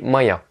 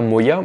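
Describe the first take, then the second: First: The first vowel sounds like 'a'. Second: The first vowel is a full 'o' sound. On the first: The speaker calls it right. "mais Maya" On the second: The speaker calls it wrong. "je dis pas Moya"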